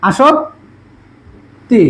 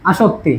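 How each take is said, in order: First: আসক্তি very slowly, "a-shok", long pause, "ti"; syllable-by-syllable pronunciation. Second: Said in the usual way. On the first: Shown as a demonstration. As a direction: break আসক্তি before the final "ti". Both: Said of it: "তাহলে এবার স ওকার".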